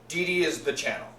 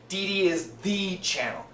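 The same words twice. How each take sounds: First: The word 'the' is short and weak. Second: The word 'the' is strong and emphasized. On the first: "did you notice I didn't say" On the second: "Lots of emphasis"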